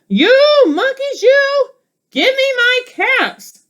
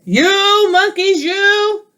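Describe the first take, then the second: First: Much higher, louder hammed-up demand; quite angry peddler. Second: Peddler demanding caps. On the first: Storybook peddler stamping his foot, yelling up at monkeys. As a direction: stamp your foot and demand them back. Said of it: "Now he felt quite angry". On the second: Acted.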